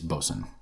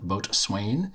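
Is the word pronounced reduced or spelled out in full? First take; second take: reduced; spelled out. First: It is said reduced, like 'bosun'. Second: It is said in full, as spelled. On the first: The speaker calls it right. "if you pronounce it the right way" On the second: The speaker calls it wrong. "which I incorrectly called Boatswain, which is how it's written"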